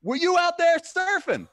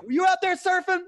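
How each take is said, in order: First: Very high, loud put-on voice; mock stoner voice. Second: Very high, loud put-on voice, same delivery; mock stoner voice. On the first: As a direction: play the beach drinker asking. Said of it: "he's like". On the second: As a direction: repeat the beach drinker's line the same. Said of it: "the delivery is the same".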